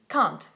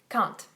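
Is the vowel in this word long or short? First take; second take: short; short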